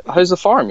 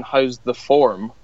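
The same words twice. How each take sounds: First: "farm" said with a clear open farm vowel; "farm" in an American farm sound; farm, as misheard. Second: "form" said with a rounded or vowel, like form; slow "form" with an or vowel, not farm; form, as meant. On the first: Telling colleague what he thought the locals said, "farm" said like farm. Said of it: "No, that's their accent". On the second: Irish colleague correcting him, "form" said with a rounded vowel. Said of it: "that's their accent". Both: Retold or imitated.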